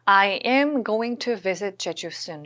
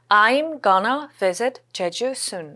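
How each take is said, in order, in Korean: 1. 'going to'는 줄이지 않고 다 풀어서 발음해요. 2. 'going to'는 'gonna'로 줄여서 발음해요.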